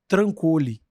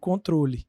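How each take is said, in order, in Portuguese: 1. É dita como trancole, com os sons trocados. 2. É dita como controle padrão. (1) "ele fala assim" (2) "Ele está falando do controle"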